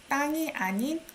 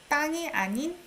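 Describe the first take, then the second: Both takes have the same delivery.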